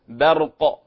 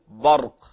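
First: The b is light and thin. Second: The b is heavy and emphatic. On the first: The speaker calls it right. "نقول برق" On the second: The speaker calls it wrong. "لا نقول برق"

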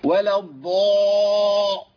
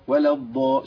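First: The emphatic sound is forced with heavy throat strain. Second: The emphatic sound is moderate, neither forced nor light. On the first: The speaker calls it wrong. "تحس كده ان روحها هتطلع" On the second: The speaker calls it right. "اقرا وسط"

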